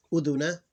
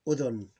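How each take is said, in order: First: "udhuna" louder, rising onto final a; full vowel ending. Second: "udhun" falling, stopping on n; vowel ending ignored. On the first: Teacher reading the last word in full, vowel pronounced. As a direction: say "udhuna" with the end a sounded. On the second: Teacher showing the same rule here, vowel dropped. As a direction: say "udhun" with no final a. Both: Shown as a demonstration. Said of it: "you ignore the vowel".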